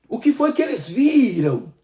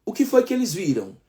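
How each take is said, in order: First: "O que foi que eles viram?" asked again higher, stressing "que"; emphatic repeat. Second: Said in the usual way. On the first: Shown as a demonstration. Preacher repeating Isaiah's question to the church, higher and pressing.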